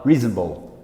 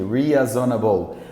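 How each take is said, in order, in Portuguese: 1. É dito com sotaque americano. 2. É dito com sotaque brasileiro. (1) "Ele fala reasonable" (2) "Sei lá como é que o brasileiro falaria isso aqui"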